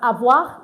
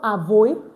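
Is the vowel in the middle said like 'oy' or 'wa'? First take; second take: wa; oy. First: The middle vowel sounds like 'wa'. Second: The middle vowel sounds like 'oy'. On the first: The speaker calls it right. "it's pronounced as avoir" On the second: The speaker calls it wrong. "and not avoid"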